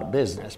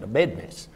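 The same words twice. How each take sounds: First: It is said with a standard pronunciation. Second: It is said with a Texas pronunciation.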